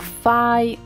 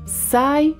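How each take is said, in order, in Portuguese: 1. Começa com o som de f. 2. Começa com o som de s. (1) "ou fai" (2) "Não é sai"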